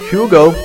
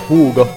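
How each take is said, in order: First: The name is said with an English pronunciation. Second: The name is said with a Finnish pronunciation.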